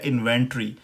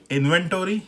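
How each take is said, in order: First: इन्वेंटरी as in-ven-tree; British pronunciation. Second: इन्वेंटरी as in-ven-tor-ee, full tory; American pronunciation. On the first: Teacher contrasts American with British, British pronunciation. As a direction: drop the o, end इन्वेंटरी on tree. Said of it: "जो British pronunciation इसकी है". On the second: Teacher contrasts American with British, American pronunciation. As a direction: give इन्वेंटरी a clear o before r. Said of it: "American pronunciation हो गई". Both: Shown as a demonstration.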